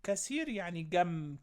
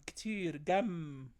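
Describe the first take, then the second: First: Said in the usual way. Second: Slowly, word by word; slow repeat. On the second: Shown as a demonstration. Teacher repeats the word slowly for pupils. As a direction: spell it out slowly for the kids.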